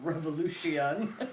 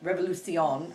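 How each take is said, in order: First: It is pronounced with English sounds. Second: It is pronounced with Spanish sounds. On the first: "for us, you know, Spanglish folks" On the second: "I guess it would be the right way to say it"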